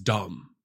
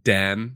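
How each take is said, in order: First: The vowel sounds like the one in 'cup'. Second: The vowel sounds like the one in 'cat'. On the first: "in Afrikaans, you pronounce it as dumb" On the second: "it's actually dam, you know, like a body of water in the English language"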